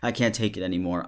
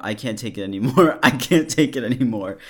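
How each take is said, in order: First: Said in the usual way. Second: Louder and higher, breaking into a laugh; building mock outburst. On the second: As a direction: ham up his despair, cracking up. Repeats the message louder, laughing.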